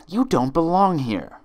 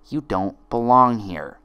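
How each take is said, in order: First: High loud final verdict; high furious friend; loud accusing friend. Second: Twin's accusation. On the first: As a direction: slam it down on her. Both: Acted. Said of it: "Each friend repeated one of her twin's lines".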